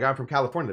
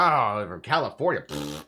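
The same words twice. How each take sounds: First: Said in the usual way. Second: Sneering mimic of his own words; mocking Texan echo. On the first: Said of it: "so I'll be like". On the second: Texan mocking a Californian tourist, lightly sneering. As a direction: parrot it back with a scoff. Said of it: "They'll be like".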